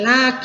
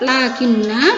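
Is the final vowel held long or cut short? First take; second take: short; long. First: The final vowel is cut short. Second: The final vowel is held long. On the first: The reader continues without stopping. "ketika wasal dibaca pendek" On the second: The reader stops after this word. "ketika wakaf dibaca panjang"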